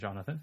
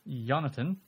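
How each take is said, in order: First: The name begins with a 'j' sound. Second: The name begins with a 'y' sound. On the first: The speaker calls it wrong. "Rather than Jonathan" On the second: The speaker calls it right. "It's spelled with a Y"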